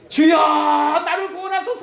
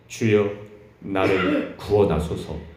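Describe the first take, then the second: First: It is shouted loudly in panic. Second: It is read calmly and evenly.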